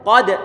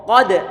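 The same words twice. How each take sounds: No difference in how they are said.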